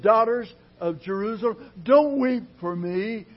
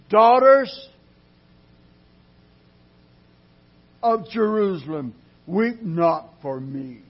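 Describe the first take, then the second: First: Jesus calling out. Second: Thundering Jesus addressing the daughters; ringing call of Jesus. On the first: Jesus voiced again. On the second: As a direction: cry out to the women as Jesus. Jesus voiced in sermon. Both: Acted.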